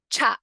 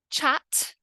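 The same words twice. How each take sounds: First: "chat" as "cha'"; glottal T. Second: "Chat" with a released T; crisp ending on "Chat"; full T. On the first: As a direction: cut the final T in "chat". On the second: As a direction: sound the final T in "Chat". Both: Shown as a demonstration. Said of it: "in the two different ways".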